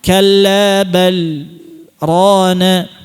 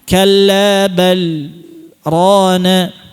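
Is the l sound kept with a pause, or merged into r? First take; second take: kept; kept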